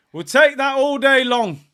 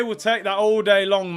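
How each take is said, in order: First: Higher and louder, celebrating; louder cheer. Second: Said in the usual way. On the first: Real, not acted. Fan cheering a missed shot, loud and high. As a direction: shout it with relief.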